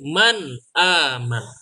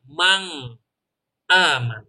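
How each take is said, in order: First: The n is short with no nasal hum. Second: The n is held with a nasal hum. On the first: The speaker calls it right. "tidak ditahan dan tidak didengungkan" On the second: The speaker calls it wrong. "bukan mang aman"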